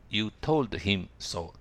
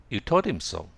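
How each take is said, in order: First: "him" said fully with its h, each word separate and slow; slow textbook "You told him so", no linking; careful unreduced English. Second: "him" said as "im" with the h dropped, linked to "told"; "You told him so" run together as "tol-dim so"; reduced "him". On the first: Teacher demonstrating how not to say it, slow and stiff. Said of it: "こういうには発音しないです". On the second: Teacher modelling natural English, "him" weakened to "im". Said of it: "him、himですね". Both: Shown as a demonstration.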